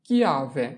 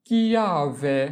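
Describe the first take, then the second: First: Said in the usual way. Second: Slow model pronunciation. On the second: Shown as a demonstration. Teacher repeats word drawn out.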